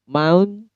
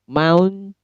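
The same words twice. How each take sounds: No difference in how they are said.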